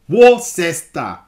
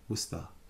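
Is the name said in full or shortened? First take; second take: full; shortened. First: Every part of the name is sounded out. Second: Some sounds in the name are dropped. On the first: "can you guess how it's pronounced?" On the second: "It's pronounced Worcester"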